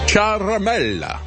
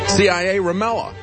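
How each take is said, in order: First: The name begins with a single 'char' syllable. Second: The name begins with the spelled letters C-I-A. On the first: "I found out how to pronounce it" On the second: "I prefer CIA Ramella because the malicious coup needs to be represented by a malapropism"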